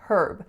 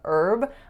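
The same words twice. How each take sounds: First: The word starts with an audible H sound. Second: The word starts with a vowel, no H. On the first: "in Canada, the H usually is pronounced. So you're going to hear herb" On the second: "when I began hearing herb"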